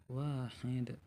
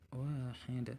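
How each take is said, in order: Both takes have the same delivery.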